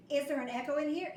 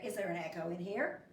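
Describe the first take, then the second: First: Said in the usual way. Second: Echo. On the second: Acted. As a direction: let it come back as a faint echo. Repeat as the echo reply.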